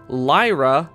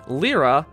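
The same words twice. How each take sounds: First: The name is said the original Japanese way. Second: The name is said the English dub way.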